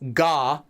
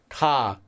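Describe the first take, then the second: First: It starts with a voiced G from the throat. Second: It starts with a soft, unvoiced, unbreathy consonant. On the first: The speaker calls it wrong. "I'm not saying ga, ga, right? I'm not doing that g, g sound" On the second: The speaker calls it right. "There's no throat sound"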